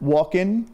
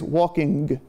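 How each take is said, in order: First: The ending has a casual, non-standard pronunciation. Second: The ending has a northern regional pronunciation. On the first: "the not as standard walk-in that everybody says" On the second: "in the North, there is walking"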